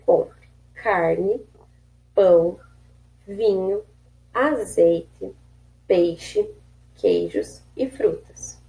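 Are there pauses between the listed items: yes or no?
yes. There are short pauses between the items.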